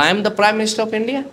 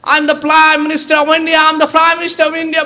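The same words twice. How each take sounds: First: Said in the usual way. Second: High, slow, drawn-out yelling of 'I am the Prime Minister of India'; shouting. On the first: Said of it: "बोला". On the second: Retold or imitated. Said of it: "बहुत चिल्ला रहा है वो".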